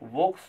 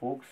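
First: The word starts with a V sound. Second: The word starts with an F sound.

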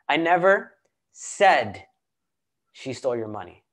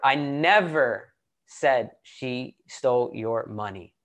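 First: The stress falls on the word 'said'. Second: The stress falls on the word 'never'. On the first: It was implied, not said outright. "I didn't say it. I possibly implied it" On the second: This never happened at all. "And then let's emphasize the second word"

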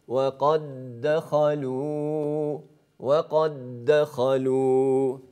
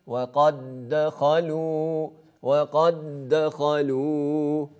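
The two takes are said the same way.

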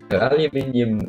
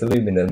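First: The word is said with five syllables. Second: The word is said with four syllables. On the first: The speaker calls it right. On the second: The speaker calls it wrong.

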